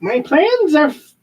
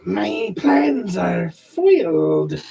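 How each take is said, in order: First: Skeletor voice. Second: Slow, drawn-out cat lady voice; snooty bored cat. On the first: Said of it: "no, I'm Skeletor". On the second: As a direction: purr it out like a pampered cat. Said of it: "do my wife's cat voice". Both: Acted.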